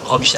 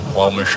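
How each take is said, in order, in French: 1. Le nom est prononcé à un ton normal. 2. Le nom est prononcé à un ton très bas.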